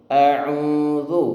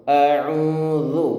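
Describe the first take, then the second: The two takes are said the same way.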